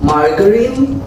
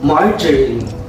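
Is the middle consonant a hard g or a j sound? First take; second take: hard g; j sound. First: The middle consonant is a hard g sound. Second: The middle consonant is a soft j sound. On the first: The speaker calls it wrong. "Did you say margarine?" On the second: The speaker calls it right. "kailangan J. Hindi siya ga"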